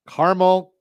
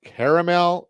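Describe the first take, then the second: First: "Caramel" said as CAR-mul; two-syllable pronunciation. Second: "caramel" said as CARE-uh-mel; three-syllable pronunciation. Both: Shown as a demonstration. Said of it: "How do you say it?".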